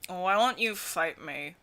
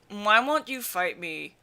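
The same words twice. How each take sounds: First: The line is spoken in a heavily mumbled voice. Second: The line is spoken in a slightly mumbled voice. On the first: The speaker calls it wrong. "Noise would be like, mm" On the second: The speaker calls it right. "not that much mumbly, but like"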